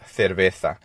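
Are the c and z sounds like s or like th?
th. The c and z sound like th. This is how it is said in Spain. "in Spain, they're both pronounced as a T H"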